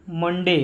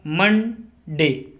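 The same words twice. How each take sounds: First: Said in the usual way. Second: Monday very slowly, मन, pause, डे; teacher's drawn-out two-part Monday; split into syllables. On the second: Shown as a demonstration. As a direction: sound out Monday in two separate beats. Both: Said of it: "दो बार उच्चारण हुआ".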